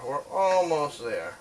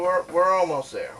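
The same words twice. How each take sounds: First: Slow, with "almost" stretched out; drawn-out emphasis. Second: Said in the usual way. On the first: Real, not acted. Repeats it, drawn out.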